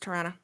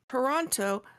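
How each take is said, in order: First: It is said quickly with syllables run together. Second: It is said slowly with every syllable clear. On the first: "But if I'm talking about it, it's Toronto" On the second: "I actually have to slow down and say Toronto"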